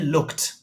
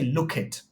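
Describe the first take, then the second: First: The ending is a single t sound. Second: The ending adds an extra id syllable. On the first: The speaker calls it right. "We say looked" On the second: The speaker calls it wrong. "we don't say look it because it doesn't sound right"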